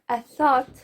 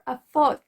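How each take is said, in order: First: The word begins with a th sound. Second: The word begins with a different sound. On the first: The speaker calls it right. "when I wanted to say a thought" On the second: The speaker calls it wrong. "I was saying a thought or a thought"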